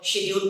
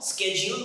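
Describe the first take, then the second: First: It is said with a British accent. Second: It is said with an American accent.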